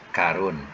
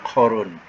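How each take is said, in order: First: It starts with a light plain k sound. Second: It starts with a deep throaty q sound. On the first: The speaker calls it right. "kan senang, ringan disebut" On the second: The speaker calls it wrong. "susah sikit... menggunakan uh, apa ni? Kita punya halkum"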